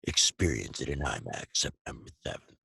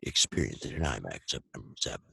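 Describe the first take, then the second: First: It is said fast. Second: It is said very fast.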